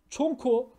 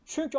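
First: "Çonko" said with a back o instead of ü; mock mispronunciation. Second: Said in the usual way. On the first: Shown as a demonstration. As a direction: say "Çonko" as çon-ko, o for ü. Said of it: "Çonko bunun bir sebebi var". ("Çonko" diye bozuk telaffuz) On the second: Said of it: "Çonko".

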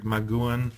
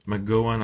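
First: "McGoohan" with an oo in the middle; first pronunciation attempt. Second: "McGowan" with a GOW middle instead of GOO; alternative pronunciation attempt. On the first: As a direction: say "McGoohan" as mc-GOO-an. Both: Shown as a demonstration. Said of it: "I don't know how you pronounce it".

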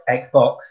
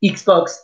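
First: Said in the usual way. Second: Xbox said the French way, eeks-box. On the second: Shown as a demonstration. Teacher modelling Xbox in French for year two. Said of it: "the French mice letter".

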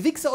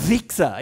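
First: Said in the usual way. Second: "Wichser" with a long, forceful buzzed W; long W from deep down. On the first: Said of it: "das ist ein Unterschied". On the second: Shown as a demonstration. Teacher contrasting two insults, forceful long-W "Wichser". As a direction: heave "Wichser" up from the depths. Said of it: "kommt aus der Tiefe heraus".

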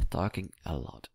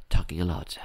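First: "Talking a lot" repeated much softer, trailing to himself; muttered under breath. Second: Said in the usual way. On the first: Real, not acted. To himself about his own rambling, softly muttered. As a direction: mumble it as a self-aware aside. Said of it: "repeats it to himself". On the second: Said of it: "remarks on his own chatter".

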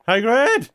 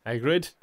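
First: High loud call. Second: Said in the usual way. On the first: Real, not acted. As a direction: call his name across the room. Calling out loudest.

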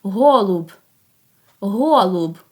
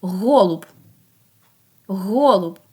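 First: "Голуб" with a clearly released final Б; last sound stressed. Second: "Голуб" with the opening Г held out; first sound stressed. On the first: Teacher asks for the last sound, final Б in "Голуб" emphasized. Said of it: "а останній". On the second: Teacher asks for its first sound, opening Г in "Голуб" emphasized. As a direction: lean into the Г that starts "Голуб". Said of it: "Який його перший звук". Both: Shown as a demonstration.

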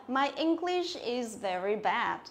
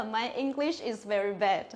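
First: Slow "My English is very bad" with open æ in bad; correct E bẹt bad. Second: Slow "My English is very bad", bad said "bed"; wrong bad as bed. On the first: Teacher gives students an example, slow with open "bad". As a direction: say it slowly, widening the vowel of "bad". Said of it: "Tiếng Anh của tôi rất là tệ". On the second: Teacher shows what not to say, slow, "bad" as "bed". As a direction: narrow the vowel of "bad" to e, speaking slowly. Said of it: "mình không thể nói là". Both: Shown as a demonstration.

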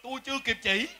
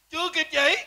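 First: Said in the usual way. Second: "Chưa kịp chỉ" repeated higher, pitched up with indignation; indignant repeat. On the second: Acted. Indignant repeat of his grievance. (nhấn cao "Chưa kịp chỉ", giọng bức xúc)

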